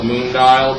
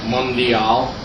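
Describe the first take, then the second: First: The first syllable sounds like the English 'moon'. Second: The first syllable is a short 'mun' sound. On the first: The speaker calls it wrong. "how somebody could call it the moon dial" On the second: The speaker calls it right. "after mun I would go D as natural sounding"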